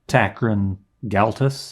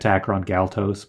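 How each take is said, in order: First: The O vowels are softened and reduced. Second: The O vowels are said fully and clearly. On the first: "you kind of fudge those those O's and don't say them as O E" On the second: "I've always said Takron Galtos"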